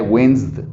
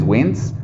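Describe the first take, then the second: First: Winced in one syllable, S plus a soft D, no E; one-beat winced with soft stop ending; soft final D. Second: Wins as one syllable ending in the S sound; plain one-beat wins; no added D. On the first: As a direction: add a light D to the end of winced. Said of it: "si le agrego como una D". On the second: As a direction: say wins bare, without a final D. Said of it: "porque la E jamás va". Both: Shown as a demonstration.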